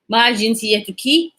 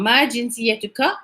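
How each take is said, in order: First: The last word ends with a 'ki' sound. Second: The last word ends with a 'ka' sound. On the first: A woman is being asked. "for the women out there" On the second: A man is being asked. "for the men out there"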